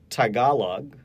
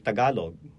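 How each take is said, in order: First: The first T has a strong puff of air. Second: The first T has only a slight puff of air. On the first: This is how a North American speaker says it. The speaker calls it wrong. "A Tagalog speaker will not say it like that" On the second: This is how a Tagalog speaker says it. The speaker calls it right. "There's a very slight aspiration of the T"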